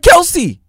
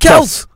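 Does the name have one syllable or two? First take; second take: two; one. First: The name is said with two syllables. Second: The name is said with one syllable. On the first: The speaker calls it wrong. "It's not Kelce" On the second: The speaker calls it right. "It's Kels"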